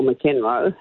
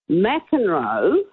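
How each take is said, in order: First: "McEnroe" with a short "muh" first and the stress on "KEN"; muh-KEN-roe pronunciation. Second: "McEnroe" with a full "Mack" at the front and the stress on it; MAC-en-roe pronunciation. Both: Shown as a demonstration. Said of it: "however you pronounce it".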